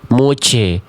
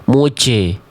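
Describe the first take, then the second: The two takes are said the same way.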